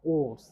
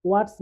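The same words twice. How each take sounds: First: ওয়ার্ডস with no r; silent R. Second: ওয়ার্ডস with the r sounded; R pronounced. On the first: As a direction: drop the r in ওয়ার্ডস. (র বাদ দিয়ে ওয়ার্ডস) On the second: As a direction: say ওয়ার্ডস with r before the d. (র উচ্চারণ করে ওয়ার্ডস) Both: Shown as a demonstration. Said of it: "আর এর উচ্চারণ হবে না".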